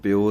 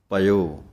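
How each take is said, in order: First: The word starts with pi, with no a sound. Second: The word starts with pa, then a separate i. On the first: The speaker calls it wrong. "ਇਹਨੂੰ ਪਿਓ ਨਹੀਂ ਕਹਿ ਦੇਣਾ" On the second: The speaker calls it right. "ਪਇਓ ਈੜੀ ਦੇ ਨਾਲ ਆਵਾਜ਼ ਦੇਣੀ ਹੈ"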